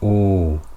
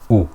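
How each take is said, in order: First: The vowel is long, two beats long. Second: The vowel is short, one beat long. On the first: "Two harakas is the time it takes me to put my finger up and down" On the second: "one haraka is the amount of time it takes me to pronounce a fatha, dhamma or kasra"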